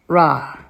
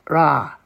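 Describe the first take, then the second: First: The r is made like an American r. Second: The r is made like an American r.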